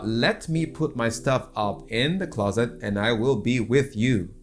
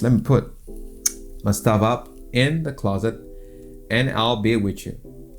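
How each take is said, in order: First: Every word is fully pronounced, without contractions. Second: Words are reduced and contracted, running together casually. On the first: The speaker sounds formal and clean. The speaker calls it wrong. "saying this in a formal way" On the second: The speaker sounds relaxed and casual. The speaker calls it right. "Let me here means let me"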